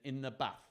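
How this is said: It is read in a northern English accent.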